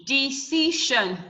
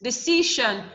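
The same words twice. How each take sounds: First: "Decision" slowly split into de, ci, sion; syllable by syllable. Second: Said in the usual way. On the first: Shown as a demonstration. Teacher counting three syllables for the class, "Decision" slowly broken up. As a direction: sound out "Decision" in three slow beats. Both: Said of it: "We have three syllable".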